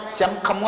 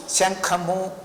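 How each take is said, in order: First: శంఖము mispronounced as sham-khamu; wrong nasal demo. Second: శంఖము with ng before the kh, as shang-khamu; correct nasal demo. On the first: Teacher showing what student does not say, m for ng. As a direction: close the lips on an m in the middle of శంఖము. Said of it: "అనట్లేదు కదా". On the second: Teacher showing words student says correctly, ng sound. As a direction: make the nasal in శంఖము at the back of the mouth, ng. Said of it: "ఇలాంటివన్నీ కరెక్ట్గా పలుకుతూ". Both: Shown as a demonstration.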